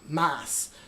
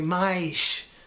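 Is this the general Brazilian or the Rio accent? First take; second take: general Brazilian; Rio. First: It is said in a general Brazilian accent. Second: It is said in a Rio de Janeiro accent. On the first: "it's usually pronounced in a lot of Brazil" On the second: "But in Rio, they say"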